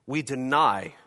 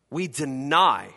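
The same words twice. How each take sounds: First: Said in the usual way. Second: We deny said slowly, each word weighted; slow, weighty repeat of we deny; slow emphatic repeat. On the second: Real, not acted. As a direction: lean hard on deny the second time.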